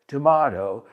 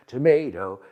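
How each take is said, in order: First: Tomato said tuh-MAH-toh; "tomato" with an ah vowel; broad A in tomato. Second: Tomato said tuh-MAY-toh; "tomato" rhyming with potato; long A in tomato. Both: Shown as a demonstration. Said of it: "several accepted pronunciations".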